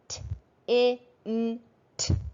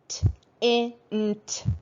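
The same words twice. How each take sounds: First: The letter sounds are said slowly, spaced apart. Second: The letter sounds are said faster, closer together. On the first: "slowly at first" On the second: "a little faster"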